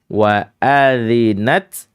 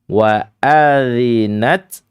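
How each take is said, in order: No difference in how they are said.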